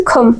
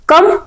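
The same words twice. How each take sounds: First: कम begun with a puff of air, "kham"; light kh sound. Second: Said in the usual way. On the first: Shown as a demonstration. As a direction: aspirate the k lightly in खम. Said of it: "खा के आवाज निकालनी है". (कम को हल्के ख से "खम" बोलें) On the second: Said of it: "कम नहीं पढ़ना है".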